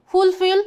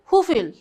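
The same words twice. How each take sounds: First: "fulfill" with the first L sounded; British pronunciation. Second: "fulfill" with the first L dropped; American pronunciation. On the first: Teacher shows students British versus American, "fulfill" British-style with first L sounded. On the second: Teacher shows students British versus American, "fulfill" American-style without first L. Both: Shown as a demonstration. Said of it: "example of British versus American".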